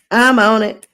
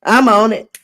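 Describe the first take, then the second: No difference in how they are said.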